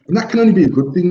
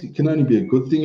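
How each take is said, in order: First: "only" pushed higher and louder, said fast; emphatic. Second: Said in the usual way. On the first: Real, not acted. Insisting to the listener that it helps. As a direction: drive the point home on "only". First take, the emphatic one.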